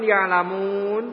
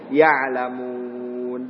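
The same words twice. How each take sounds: First: "ya'lamun" ending on rounded lips, nun lost; cuman waw. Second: "Ya'lamun" very slow, final nun held with spread lips; nun dengan nyengir. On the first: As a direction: leave "ya'lamun" in a pout. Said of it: "Cuman waw". ("ya'lamun" berakhir monyong, nun hilang) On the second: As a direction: hold the end of "Ya'lamun" through a grin. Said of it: "Nun sama sin harus nyengir". ("Ya'lamun" panjang, nun sambil nyengir) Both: Shown as a demonstration.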